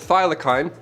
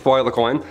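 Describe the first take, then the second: First: It is said in the speaker's ordinary accent. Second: It is said in a put-on Australian accent.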